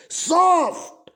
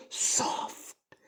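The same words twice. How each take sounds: First: soft drawn out slow, higher and louder; stretched high. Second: Slow, soft whisper of soft. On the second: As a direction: breathe soft out slowly in a whisper. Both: Shown as a demonstration. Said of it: "बोलो कैसी".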